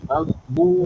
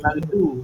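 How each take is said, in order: First: The consonant is a heavy, emphatic 'dh' sound. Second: The consonant is a plain, light 'd' sound. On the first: The speaker calls it right. "yang keempat huruf dot. Maghbu" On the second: The speaker calls it wrong. "Dot dia bukan du eh. Bukan ghairil maghdu"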